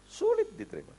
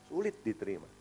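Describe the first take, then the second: First: High. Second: Said in the usual way. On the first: Shown as a demonstration. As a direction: repeat it much higher.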